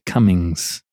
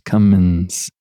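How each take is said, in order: First: The word ends in an ng sound. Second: The word ends in a plain n sound. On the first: The speaker calls it wrong. "the G gets slipped in there and changes the pronunciation to Cummings" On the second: The speaker calls it right. "C-U-M-M-I-N-S, Cummins"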